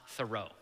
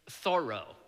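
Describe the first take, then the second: First: The first syllable does not sound like 'Thor'. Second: The first syllable sounds like 'Thor'. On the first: The speaker calls it wrong. "not Thoreau" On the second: The speaker calls it right. "Think God of Thunder"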